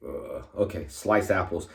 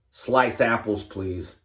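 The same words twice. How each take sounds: First: Lower, softer cashier echoing the order; a hint of a bored cashier repeating back; mock cashier. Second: Lightly voiced customer politely ordering; a hint of a customer at the counter; mock customer order. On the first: Cashier repeating the customer's order, lower and softer. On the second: Customer at McDonald's ordering apple slices, lightly acted.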